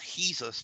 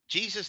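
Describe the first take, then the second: First: It starts with an H sound. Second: It starts with a J sound.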